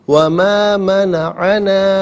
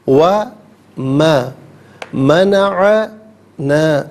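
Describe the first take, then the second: First: The words run together without breaks. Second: Each word is said separately with small breaks. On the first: "मिलाकर पढ़ते हैं" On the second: "हर कलमे को अलहदा"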